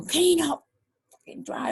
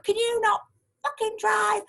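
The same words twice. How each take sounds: First: A lighter retelling of her jab; mock angry quote. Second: High mock yell on "fucking drive"; imitating angry shout. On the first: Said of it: "saying, you know". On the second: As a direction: shriek it like the furious driver. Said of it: "this lady appeared at my window going".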